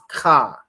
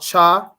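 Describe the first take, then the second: First: It starts with a rough sound from the throat. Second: It starts with an English 'ch' sound. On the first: The speaker calls it right. "it's more in your throat with it. It's more guttural" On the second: The speaker calls it wrong. "This one here is not cha. I know the C H English will have you say cha"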